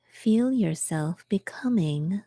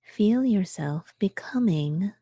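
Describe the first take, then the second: No difference in how they are said.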